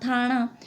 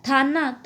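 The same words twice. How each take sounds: First: थाना with retroflex ण; Western retroflex n. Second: Said in the usual way. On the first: Shown as a demonstration. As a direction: say थाना as thaa-ṇaa, tongue curled back. (थाना में न की जगह ण) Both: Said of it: "न का ण हो जाता है".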